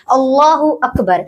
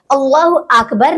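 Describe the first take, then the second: First: "अल्लाहु" and "अकबर" as distinct words, short a in "अकबर"; words said separately. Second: "अकबर" with a long opening aa, "aakbar"; mispronounced Akbar. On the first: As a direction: model "अकबर" carefully with a short opening a. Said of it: "इनको अलग अलग पढ़ना है". ("अल्लाहु" और "अकबर" अलग-अलग, छोटे "अ" से) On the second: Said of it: "नहीं पढ़ना है". ("अकबर" को लंबे "आ" से "आकबर") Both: Shown as a demonstration.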